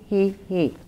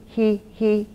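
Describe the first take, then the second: Both takes have the same delivery.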